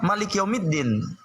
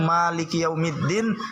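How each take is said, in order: First: The first vowel of Malik is short. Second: The first vowel of Malik is long.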